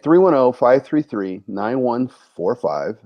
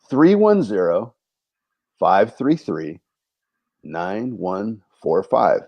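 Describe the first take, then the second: First: The number is said at normal, quicker speed. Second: The number is said more slowly.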